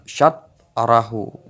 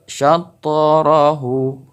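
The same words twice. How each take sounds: First: "syatarahu" with the t stopped flat; wrong way, no bounce. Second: "syatarahu" with an audible echo on the t; bounced ta. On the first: Teacher showing the wrong reading, flat ta. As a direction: swallow the ta in "syatarahu". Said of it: "bukan syatarahu". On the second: Teacher showing the right reading, bounced ta. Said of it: "yang benar itu syatarahu". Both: Shown as a demonstration.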